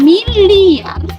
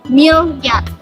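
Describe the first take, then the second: First: The 'li' is said as a full syllable. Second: The 'li' becomes a 'ly' glide. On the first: The speaker calls it right. "perubahan fonem I menjadi fonem Y sehingga pelafalan miliar" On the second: The speaker calls it wrong. "menjadi miliar"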